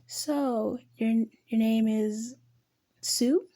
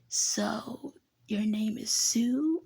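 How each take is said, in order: First: It is said in the reader's normal voice. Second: It is said in a raspy put-on voice.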